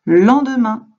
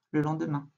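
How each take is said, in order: First: "Le lendemain" called out loud and high; answer reveal. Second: Said in the usual way. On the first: Shown as a demonstration. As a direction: announce the answer proudly. (réponse annoncée fort) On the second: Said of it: "repeats the answer".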